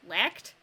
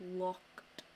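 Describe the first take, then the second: First: The vowel sounds like the one in 'lacked'. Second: The vowel is clearly enunciated as in 'locked'. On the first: The speaker calls it wrong. "Not lacked" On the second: The speaker calls it right.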